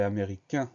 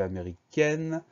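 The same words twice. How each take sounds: First: "américain" ending in a nasal vowel, no N sounded; masculine ending. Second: "américaine" ending in a clearly sounded N; feminine ending. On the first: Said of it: "changer un petit peu la prononciation". (« américain » avec un « un » nasal final) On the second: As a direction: end "américaine" on "-ène", N fully pronounced. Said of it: "le un se transforme en N". (« américaine » avec le N final bien prononcé) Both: Shown as a demonstration.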